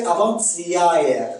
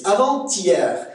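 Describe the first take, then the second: First: "avant-hier" as avant-sya-ère; Québécois pronunciation. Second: Said in the usual way. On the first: Shown as a demonstration. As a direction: hiss the t to ts and glide the end of "avant-hier". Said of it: "on va prononcer avant-hier". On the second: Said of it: "on va prononcer".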